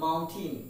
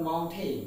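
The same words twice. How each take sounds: First: Mountain ending in "-tin"; corrected pronunciation. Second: Mountain ending in "-tain" like "rain"; full "ay" vowel at the end of mountain; wrong pronunciation. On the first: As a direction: shorten the end of mountain to "tin". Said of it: "but the fact is the pronunciation is". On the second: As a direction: say mountain as "moun-tayn". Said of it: "not mountain". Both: Shown as a demonstration.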